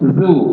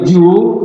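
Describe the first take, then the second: First: The syllable starts with a soft 'dh' sound. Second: The syllable starts with a 'j' sound. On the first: The speaker calls it right. "Jadi lidah pas di ujung gigi" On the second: The speaker calls it wrong. "apalagi ju, ah, itu salah"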